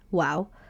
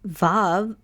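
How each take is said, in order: First: It begins with a W sound. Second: It begins with a V sound. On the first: This is the ancient pronunciation. "Vav probably was called wow instead" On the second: This is the modern pronunciation. "it makes the V sound as in van"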